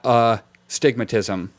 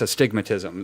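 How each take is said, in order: First: The a is said apart from stigmatism. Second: The a is joined into one word. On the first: The speaker calls it wrong. "It's not a stigmatism" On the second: The speaker calls it right. "Like that's one word instead of saying a"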